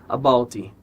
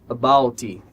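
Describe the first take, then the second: The two takes are said the same way.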